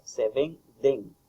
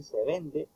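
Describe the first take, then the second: First: "se venden" said slowly with the plural n ending clear; "se venden" stressed on the final n, slowly; correct plural. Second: "se vende" said as the singular form, slowly; "se vende" marked as the error, spoken softer; wrong form. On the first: Tutor showing students the correct "se venden". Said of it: "lo correcto es "se venden". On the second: Tutor showing students the wrong "se vende". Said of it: "no, lo correcto es". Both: Shown as a demonstration.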